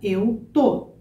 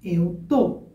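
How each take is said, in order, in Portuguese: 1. O verbo é encurtado para uma sílaba. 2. O verbo é encurtado para uma sílaba.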